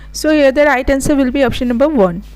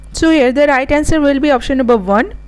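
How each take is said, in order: The two takes are said the same way.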